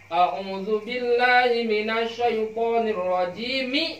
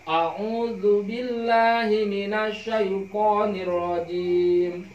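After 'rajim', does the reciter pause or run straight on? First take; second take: run on; pause. First: It runs straight into the next phrase. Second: There is a full stop after the phrase. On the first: The parts are joined into one stretch. "Ari wastul jam'i mah disambungkeun" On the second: Each part is recited as a separate unit. "qat'ul jam'i. Hartos nama dipegatkeun kabeh, diwakofkeun"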